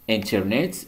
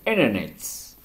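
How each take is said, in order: First: The T after the N is pronounced. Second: The T after the N is dropped.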